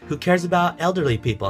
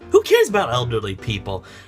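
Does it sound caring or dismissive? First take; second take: caring; dismissive. First: It sounds like a sincere, caring question. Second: It sounds like a dismissive, uncaring remark.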